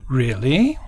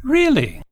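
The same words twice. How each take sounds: First: Really? with a rising tune; questioning really. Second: Really? jumps very high then falls; shocked high-pitched Really?; incredulous really. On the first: Showing ways to say really, rising question. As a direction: ask Really? rising at the end. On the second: Showing ways to say really, high and falling. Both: Shown as a demonstration. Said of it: "we can say really in many ways".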